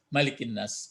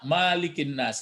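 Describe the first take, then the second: First: The first vowel is kept short. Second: The first vowel is drawn out long. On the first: The speaker calls it right. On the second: The speaker calls it wrong. "jangan dibaca malikin nas, enggak ada qiraat"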